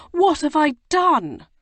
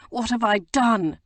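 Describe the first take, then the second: First: Much higher and louder anguished repeat; the regret breaks out fully; anguished remorse. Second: Higher, louder remorseful lament; first cry of regret. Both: A narrator's reading. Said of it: "he said remorsefully".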